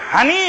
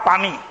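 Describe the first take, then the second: First: The word begins with an h sound. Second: The word begins with a p sound. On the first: This is the Noakhali way of saying water. "নোয়াখালীর হানি" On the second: This is the Dhaka way of saying water. "ঢাকার পানি"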